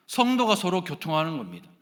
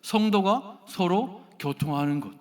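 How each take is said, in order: First: Said in the usual way. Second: Slow, deliberate recitation stressing 성도가; measured liturgical reading with weight on 성도가; slow creed recitation. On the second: Shown as a demonstration. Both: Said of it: "어떻게 해요?".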